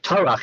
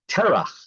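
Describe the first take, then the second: First: The first vowel sounds like 'ah'. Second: The first vowel sounds like 'eh'. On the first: This is the form at a pause in the verse. "We have Tarach" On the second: This is the usual everyday form. "we generally call him Terach"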